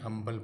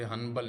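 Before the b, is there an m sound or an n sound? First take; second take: m sound; n sound. First: An m sound comes before the b. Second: An n sound comes before the b. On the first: The speaker calls it right. "हम्बल पढ़ना है" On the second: The speaker calls it wrong. "मुझे हनबल नहीं"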